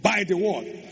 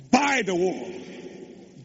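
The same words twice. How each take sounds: First: Said in the usual way. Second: Slow emphatic. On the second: Shown as a demonstration.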